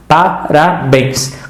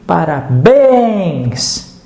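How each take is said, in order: First: Parabéns said slowly, syllable by syllable, pa-ra-béns; split into syllables. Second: Parabéns stretched slowly, the last syllable bens leaned on; drawn-out parabéns, hitting bens; stressed parabéns. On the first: Teacher splits the word for students, slow syllables. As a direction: spell out Parabéns in slow beats. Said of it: "Separa agora pa-, parabéns". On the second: Teacher shows students the stressed syllable, slow and stretched. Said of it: "Grita, parabéns". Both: Shown as a demonstration.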